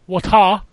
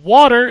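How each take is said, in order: First: It is said in a put-on British accent. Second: It is said in the speaker's usual accent.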